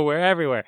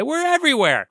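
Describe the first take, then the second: First: Said in the usual way. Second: High-pitched singsong excitement; gleeful boast. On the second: Pretend. Host bragging the show is on every platform, gleeful high boast. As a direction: crow it, pitched way up.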